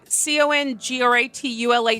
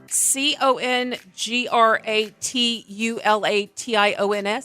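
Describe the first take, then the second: First: The letters are spelled out at normal speed. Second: The letters are spelled out slowly.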